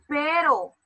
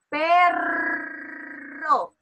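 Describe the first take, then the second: First: The R is a single soft tap. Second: The R is a strong rolled trill. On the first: The speaker calls it wrong. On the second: The speaker calls it right.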